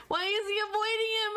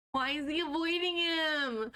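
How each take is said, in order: First: Higher, louder disbelieving repeat; surprised. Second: Said in the usual way. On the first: Real, not acted. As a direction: ask it again in disbelief. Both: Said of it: "repeated louder, higher".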